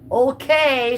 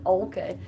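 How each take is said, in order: First: Sarcastic okay. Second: Said in the usual way. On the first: Retold or imitated. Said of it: "I think she's being sarcastic there". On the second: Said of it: "she says".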